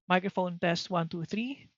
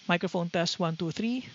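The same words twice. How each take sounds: First: Noise cancellation is on, with the fan running. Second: Noise cancellation is off, with the fan running. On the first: "And then with noise cancellation turned on" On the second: "this is with noise cancellation turned off"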